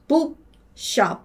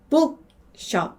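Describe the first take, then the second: Both takes have the same delivery.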